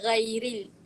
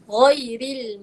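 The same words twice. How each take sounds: First: The r sound is light and thin. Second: The r sound is heavy and thick. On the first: The speaker calls it wrong. "Dia bukan ghairil" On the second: The speaker calls it right. "ra ni dia kena tebal sikit"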